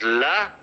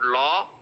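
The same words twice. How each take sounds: First: "la" with an open, unrounded uh; the right first syllable of lucky, said as "la"; correct vowel. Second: "law" with a round aw, drawn out; the mistaken first syllable of lucky, said as "law"; wrong rounded vowel. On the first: Teacher corrects the vowel for students, correct unrounded "la". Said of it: "it is la". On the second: Teacher shows what to avoid, wrong rounded "law". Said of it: "it's not law". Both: Shown as a demonstration.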